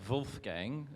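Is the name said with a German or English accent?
German. It is said with a German accent.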